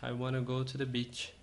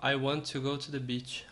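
First: 'Want to' is run together into 'wanna'. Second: Both words 'want to' are said in full. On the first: "De tanto falar rápido foi surgindo esse wanna aqui" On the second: "o wanna I want to"

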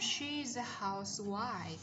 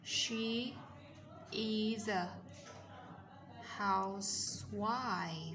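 First: She is is contracted and linked to a. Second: She is is said as two full words. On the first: "SH tròn miệng này, Z này, Z nối âm" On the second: "khi chúng ta viết đầy đủ thì sẽ là"

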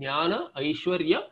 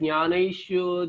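First: It is broken into its component parts. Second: It is run together as one word. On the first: The speaker calls it right. "These are the components there. To read the components" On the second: The speaker calls it wrong. "We read Jnanaishwarya, then what is this Jnanaishwarya? It should not happen that way"

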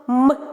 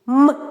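Both takes have the same delivery.

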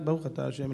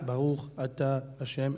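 First: The phrase is said fast. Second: The phrase is said slowly. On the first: "אני מדבר על אנשים שמדברים מהר" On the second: "לא לאט"

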